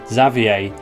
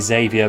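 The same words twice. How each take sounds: First: The name is said in a French-sounding way. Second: The name is said in a plain English way. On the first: This is how the source material says it. "they actually call him Xavier in his introductory cutscene" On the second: This is how the speaker would naturally say it. "I would say Xavier by default"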